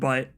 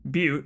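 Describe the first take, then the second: First: The name sounds just like 'butt'. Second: The name does not sound like 'butt'. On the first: The speaker calls it wrong. "not Butt" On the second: The speaker calls it right.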